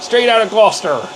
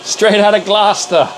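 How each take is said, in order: First: Straight out of Gloucester in a rural Gloucestershire farmer accent; hammed-up Gloucestershire farmer accent, a bit higher. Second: Said in the usual way. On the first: Shown as a demonstration. Streamer to his chat, in a mock Gloucestershire farmer accent. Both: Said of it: "With a farmer accent".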